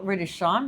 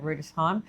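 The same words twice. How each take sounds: First: Rudesheim sounded out as it is spelt; pronounced as spelt. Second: Said in the usual way. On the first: Shown as a demonstration. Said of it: "I think you say it Rudesheim". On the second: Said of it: "I think you say it".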